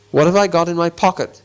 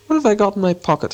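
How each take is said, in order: First: Firmer, more forceful question; said louder. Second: Higher, puzzled musing; said aloud to himself. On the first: Bilbo sticks to his question, louder and insistent. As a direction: put it firmly, raising the voice a little. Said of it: "he said louder". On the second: Bilbo talking to himself about his pocket, puzzled. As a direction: wonder aloud, pitched up. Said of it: "he said aloud". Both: A narrator's reading.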